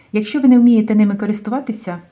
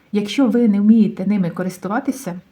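The two takes are said the same way.

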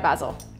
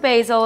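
First: It is said with a British pronunciation. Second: It is said with an American pronunciation.

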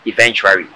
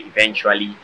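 First: The word is said with an R sound near the end. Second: The word is said with an L sound near the end. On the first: The speaker calls it wrong. "mispronouncing the word eventually to eventuary" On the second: The speaker calls it right. "Everybody's mispronouncing the word eventually"

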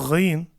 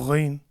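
Both takes have the same delivery.

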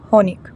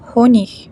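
First: The ending is a hard g sound. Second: The ending is a soft ch sound. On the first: This is a regional pronunciation. "в деяких містах воно читається як ig" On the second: This is the standard pronunciation. "як ich"

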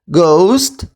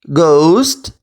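No difference in how they are said.

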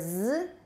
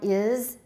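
First: The word is said as a bare consonant. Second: The word is said with a full vowel. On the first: "weak form us or z" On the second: "strong form is"

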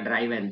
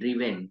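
First: The first vowel sounds like 'eye'. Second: The first vowel sounds like 'ee'. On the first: The speaker calls it wrong. "मैं पहले ड्राइवन बोलता था" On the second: The speaker calls it right. "उसने बोला ड्राइवन नहीं, ड्रीवेन"

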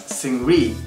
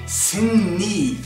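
First: The second syllable begins with an R sound. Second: The second syllable begins with an N sound. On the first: The speaker calls it wrong. "pronounce his name as [name] because that's the way it's romanized" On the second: The speaker calls it right. "The man is called [name]"

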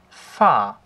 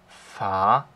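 First: The pitch falls sharply downward. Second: The pitch dips down, then rises. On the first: "beim vierten Ton ist es halt ein abfallender Strich" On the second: "Beim dritten Ton ist es so ein kleines V"

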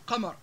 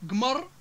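First: The word begins with a deep q sound. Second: The word begins with a hard g sound. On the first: This is the Standard Arabic form. "بدل من قمر" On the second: This is the Libyan dialect form. "حرف الجاء كقولنا مثلا قمر"

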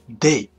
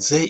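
First: The word starts with a 'd' sound. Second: The word starts with a soft 'th' sound.

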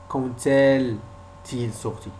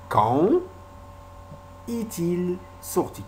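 First: A t sound links quand to est. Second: No t sound links quand to est. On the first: The speaker calls it wrong. "On ne dit pas quand est-il sorti" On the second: The speaker calls it right. "On dit quand est-il sorti"

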